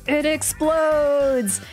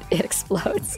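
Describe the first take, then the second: First: It is said in an overdramatic, jokey tone. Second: It is said flatly, as if nothing happened.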